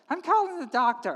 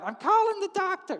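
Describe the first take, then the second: First: Raised, worked-up pitch; insist, voice lifting; insistent wife. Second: Very high, agitated wife; shrieking insistence. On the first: Wife overruling her husband, insistent. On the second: Wife overruling her husband, shrill insistence. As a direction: repeat it in a high, frantic pitch. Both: Acted.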